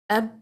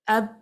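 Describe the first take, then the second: First: The final b stops short at the lips. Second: The final b stops short at the lips.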